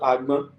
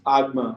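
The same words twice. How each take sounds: First: It has the tone pattern of the word bee. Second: It has the tone pattern of the word basket. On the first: It means bee. "not a bee" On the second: It means basket. "you are talking about basket"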